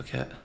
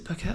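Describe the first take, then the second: First: "Phuket" with an F sound; F pronunciation. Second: "Phuket" with a hard P sound; P pronunciation. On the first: Unsure traveller trying the other option, "Phuket" with an F. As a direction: say "Phuket" starting like "fuh-ket". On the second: Unsure traveller trying out the name, "Phuket" with a P. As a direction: say "Phuket" starting like "poo-ket". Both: Shown as a demonstration. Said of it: "Is it Phuket or Phuket".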